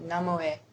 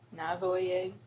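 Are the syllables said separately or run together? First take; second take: run together; separately. First: The syllables are run together quickly. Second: The syllables are said separately and fully. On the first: The speaker calls it right. "it's better to say Namoe. Like just kind of run it together" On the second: The speaker calls it wrong. "the software taught me to say nine Navoye"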